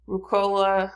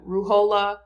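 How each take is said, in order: First: Ruhollah said as rukola, with a k sound; mispronounced Ruhollah. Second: Ruhollah said with a clear h, ru-HO-lah; corrected Ruhollah. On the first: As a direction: Ruhollah with a hard k in the middle. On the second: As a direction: Ruhollah stressed, breathy h in the middle. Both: Real, not acted. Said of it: "no, Ruhollah".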